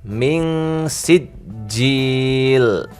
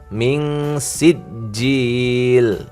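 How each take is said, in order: The two takes are said the same way.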